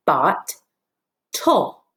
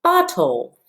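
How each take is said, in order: First: Bot, tull as two parts with a pause between; syllable by syllable. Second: Bottle joined up with no gap; whole word. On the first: Teacher lining up two parts for pupils, bot, tull spaced apart. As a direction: separate bot from tull, each syllable alone. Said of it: "put those back together". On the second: Teacher confirming the word for pupils, Bottle said whole. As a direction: blend both syllables into one word, Bottle. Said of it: "What is this word?". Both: Shown as a demonstration.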